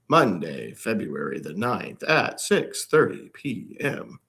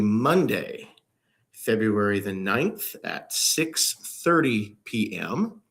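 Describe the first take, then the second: First: It is said in a robotic Speak & Spell voice. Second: It is said in a natural speaking voice.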